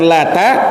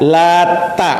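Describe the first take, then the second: First: The t sound is short and single. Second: The t sound is doubled and held longer. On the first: "Bisa dibaca dengan Lata" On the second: "bisa juga dengan mentasydid huruf ta'nya"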